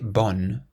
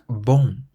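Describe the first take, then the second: First: The final N is clearly pronounced as a consonant. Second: It ends in a nasal vowel without a clear N. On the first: The speaker calls it wrong. "you don't pronounce it bon" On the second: The speaker calls it right. "It's more like bon, ... a nasal sound"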